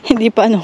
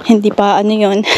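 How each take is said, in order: First: Quick words through a laugh. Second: Said in the usual way. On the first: Real, not acted. Vlogger laughing at herself over breakfast, quick laughing words. Repeats phrase, second time laughing.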